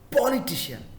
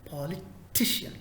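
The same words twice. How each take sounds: First: The stress is not on the third syllable. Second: The stress is on the third syllable. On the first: The speaker calls it wrong. "It's not politician" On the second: The speaker calls it right. "the third syllable ... It is T. Politician"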